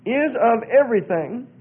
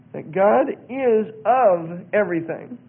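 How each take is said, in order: First: Said in the usual way. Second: "is of everything" spaced out slowly, word by word; deliberate emphasis. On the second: Real, not acted. Rereads puzzling line for scrutiny.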